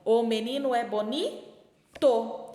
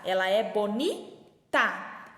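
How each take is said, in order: First: Slow "bonito", pausing before a full "to"; stressed masculine ending. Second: Slow "bonita", pausing before "ta"; stressed feminine ending. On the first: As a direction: hang on "boni", then land "tô". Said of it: "E se for o menino?". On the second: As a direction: hang on "boni", then land "ta". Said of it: "por exemplo, a palavra bonita". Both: Shown as a demonstration.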